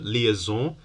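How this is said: The word is said with French pronunciation. "In French, the liaison"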